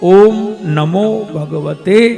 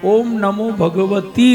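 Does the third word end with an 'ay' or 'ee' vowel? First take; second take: ay; ee. First: The third word ends with an 'ay' vowel. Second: The third word ends with an 'ee' vowel. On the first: The speaker calls it right. "આપણે સીધો જ મંત્ર બોલીએ" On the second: The speaker calls it wrong. "ઓમ નમો ભગવતી નહીં"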